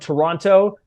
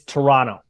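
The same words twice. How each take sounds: First: The second T is clearly pronounced. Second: The second T is dropped, not pronounced. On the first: The speaker sounds like an outsider. The speaker calls it wrong. "they'll say no, you're not... that's not how it's said" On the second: The speaker sounds like a local. The speaker calls it right. "The T is silent"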